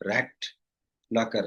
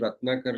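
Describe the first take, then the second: First: The name begins like the English word 'rat'. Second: The name begins with a native Telugu 'rat' syllable. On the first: The speaker calls it wrong. "ఒక ఆయనైతే రాట్ నాకర్ అనేవాడు" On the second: The speaker calls it right. "నా పేరు రత్నాకర్"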